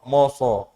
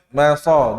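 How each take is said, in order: First: The syllable is heavy, with a rounded 'o' vowel. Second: The syllable is light, with an open 'a' vowel. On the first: The speaker calls it wrong. "Jadi jangan bikin" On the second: The speaker calls it right. "nggak boleh dibaca tebal"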